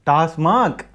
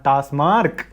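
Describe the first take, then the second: First: The word ends in 'mac' with no R. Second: The word ends in 'mark' with an R. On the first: The speaker calls it right. "டிஏஎஸ்எம்ஏசி, not எம்ஏஆர்கே. டாஸ்மாக்" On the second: The speaker calls it wrong. "Not டாஸ்மார்க்"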